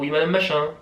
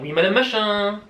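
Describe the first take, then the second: First: The voice falls, sounding grave. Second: The voice rises, sounding cheerful.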